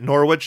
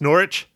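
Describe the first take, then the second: First: The W in the middle is pronounced. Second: The W in the middle is silent. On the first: The speaker calls it wrong. "it wasn't Norwich" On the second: The speaker calls it right. "it's Norwich? ... How the hell do you have a silent W?"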